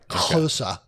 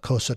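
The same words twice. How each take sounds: First: The word begins with a click sound. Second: The word begins with a plain consonant. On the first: "Sometimes I do" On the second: "You can't say that with the click"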